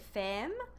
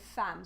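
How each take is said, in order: First: The vowel sounds like 'eh'. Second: The vowel sounds like 'ah'. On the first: The speaker calls it wrong. "we don't say femme" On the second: The speaker calls it right. "we say femme"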